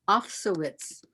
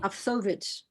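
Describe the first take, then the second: First: The name is said the plain American way. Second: The name is said the Russian way.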